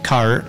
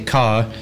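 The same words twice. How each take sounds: First: The final R sound is pronounced. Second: The final R sound is dropped. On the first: "Like an American person would say" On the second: "they don't pronounce the R at the end of syllables"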